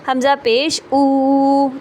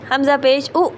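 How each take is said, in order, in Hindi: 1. आख़िरी स्वर लंबा खींचा गया है। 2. आख़िरी स्वर झटके के साथ काटा गया है। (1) "इस तरह से खींच के नहीं पढ़ना" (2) "ये झटका"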